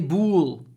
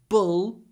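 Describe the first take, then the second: First: The vowel is long, like 'oo'. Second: The vowel is short, like 'uh'. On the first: The speaker calls it wrong. "Just don't say bool" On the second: The speaker calls it right. "The the uh is really short"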